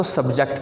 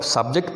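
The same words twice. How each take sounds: First: subject as "sub-JECT", the verb; weak sub, stressed ject in subject; stress on second syllable. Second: subject as "SUB-ject", the noun; stressed open sub, light ject in subject; stress on first syllable. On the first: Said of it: "आप इसको subject पढ़ोगे". (Subject में दूसरे हिस्से पे stress) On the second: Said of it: "इसको आप subject pronounce करोगे". (सब्जेक्ट में पहले हिस्से पे stress) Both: Shown as a demonstration.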